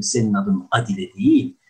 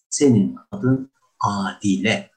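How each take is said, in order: First: "Adile" said the wrong way, teacher's mock mispronunciation. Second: "Adile" said slowly and carefully the right way; slow model "Adile" for the student; correct Adile. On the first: Teacher correcting a student's name, wrong version first. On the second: Teacher giving the student the correct name slowly. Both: Shown as a demonstration.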